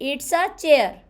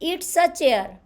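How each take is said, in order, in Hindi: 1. 'It is' को छोटा करके एक सिलेबल 'it's' बोला जाता है। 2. 'It is' को छोटा करके एक सिलेबल 'it's' बोला जाता है।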